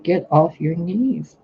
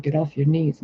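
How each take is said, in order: First: "Get off your knees" drawn out slowly, higher pitched, falling on knees; emphatic repeated order. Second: Said in the usual way. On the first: Retold or imitated. God repeats the order to a kneeler, "Get off your knees" slow and insistent.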